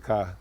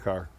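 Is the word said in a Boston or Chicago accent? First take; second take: Boston; Chicago. First: It is said in a Boston accent. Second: It is said in a Chicago accent. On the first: "if I'm from Boston, I say ka" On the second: "Chicago, I say car"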